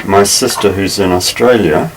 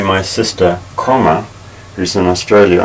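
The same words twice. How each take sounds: First: "My sister who's in Australia" as one unbroken phrase; no pause. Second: "My sister", spoken "comma", then "who's in Australia" set apart; pause at comma. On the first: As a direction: run "sister" straight into "who's", no break. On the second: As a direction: break after "sister", say the comma aloud, then resume. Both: Shown as a demonstration. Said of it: "the pause indicated by the comma".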